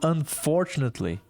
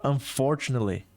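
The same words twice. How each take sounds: First: The T sound in the middle is clearly pronounced. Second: The T sound in the middle is left out. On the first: "Então ele falou unfortunately" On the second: "Muita gente nem fala a letra T"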